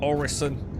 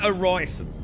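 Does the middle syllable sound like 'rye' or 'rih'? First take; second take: rih; rye. First: The middle syllable sounds like a short 'rih'. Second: The middle syllable sounds like 'rye'. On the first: The speaker calls it right. "which I think is probably the pr- correct pronunciation" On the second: The speaker calls it wrong. "I like Orison"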